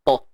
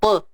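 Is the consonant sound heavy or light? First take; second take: heavy; light. First: The consonant is heavy, with a full vowel. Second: The consonant is light, with a thin vowel. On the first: The speaker calls it right. "to ni kena tebal" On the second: The speaker calls it wrong. "jangan te. Ha, tu dah tak tebal dah"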